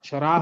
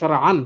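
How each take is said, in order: First: The word ends on a plain vowel. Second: The word ends with an added -an. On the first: The speaker calls it wrong. "শরা হবে না" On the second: The speaker calls it right. "শরআন হবে"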